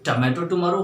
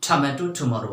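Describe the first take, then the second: First: The t is plain, without a puff of air. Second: The t has a strong puff of air. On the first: "ना तो ये ट होते हैं" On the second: "ना तो ये ठ होते हैं"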